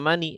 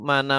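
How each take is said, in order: First: The word ends in an i vowel. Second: The word ends in an a vowel.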